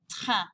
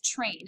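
First: It is pronounced the French way. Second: It is pronounced the English way. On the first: "but pronounce it train" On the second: "The word, yes, it is train. It's spelled the same"

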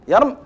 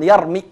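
First: The word ends on a bare final consonant. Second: The word ends with a short i vowel. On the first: "نقف بالسكون" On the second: "لو أردنا ننطق بالكسرة نقول يرمي هكذا بدون ياء"

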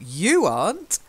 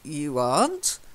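First: The stress falls on the word "you". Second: The stress falls on the word "aren't". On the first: This person, unlike others, is not in the history books. "So it would be stressed on the you" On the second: It denies the person's own claim to be in the books. "aren't would be more if he'd said, I'm in the history books"

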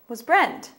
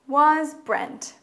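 First: It is said at a faster pace. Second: It is said at a slower pace.

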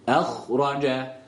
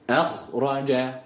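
No difference in how they are said.

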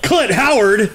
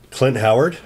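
First: It is said with loud excitement. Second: It is said flatly, without excitement.

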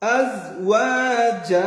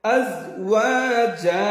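Both takes have the same delivery.

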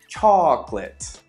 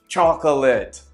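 First: A middle syllable of the word is dropped. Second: Every syllable of the word is pronounced in full. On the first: The speaker calls it right. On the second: The speaker calls it wrong.

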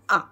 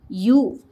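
First: The vowel sounds like the one in sun. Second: The vowel sounds like the one in cute. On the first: "Short sound of U is" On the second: "Long sound of U is"

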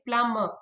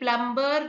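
First: The b sound is silent. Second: The b sound is pronounced. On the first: The speaker calls it right. "Letter B is silent in plumber" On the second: The speaker calls it wrong. "ये प्लम्बर नहीं है"

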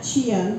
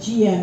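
First: The word begins with a ch sound. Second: The word begins with a j sound. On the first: The speaker calls it wrong. "not Chiang" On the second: The speaker calls it right. "but Chiang with a J"

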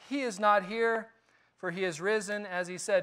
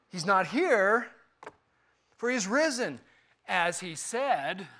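First: The line is read in a plain, neutral tone. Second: The line is said in an irritated, annoyed tone.

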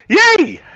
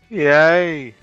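First: It is said with much more excitement. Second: It is said with slightly more excitement.

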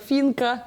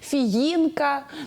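First: The name is said in two syllables. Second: The name is said in three syllables. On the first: The speaker calls it wrong. "та буква «Ї» не хочуть" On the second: The speaker calls it right. "ви його добре назвали"

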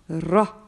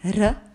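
First: The sound is heavy, with a full mouth. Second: The sound is thin, with an empty mouth. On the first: The speaker calls it right. "a little full mouth" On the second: The speaker calls it wrong. "you do not read it with an empty sound"

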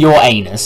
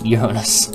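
First: It sounds like the phrase 'your anus'. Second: It does not sound like 'your anus'. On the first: The speaker calls it wrong. "I'm not saying your anus" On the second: The speaker calls it right. "I am pronouncing it right"

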